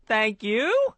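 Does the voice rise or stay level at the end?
rise. The pitch rises up at the end. The speaker calls it right. "I like the way you raised it up there at the end"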